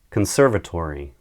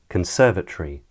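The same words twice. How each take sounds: First: It is said in an American accent. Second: It is said in a British accent.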